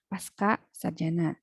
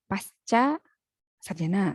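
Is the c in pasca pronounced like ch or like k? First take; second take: k; ch. First: The c in pasca sounds like k. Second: The c in pasca sounds like ch. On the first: The speaker calls it wrong. "bukan ... Kalau C dibaca K" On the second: The speaker calls it right. "C ya dibaca C saja"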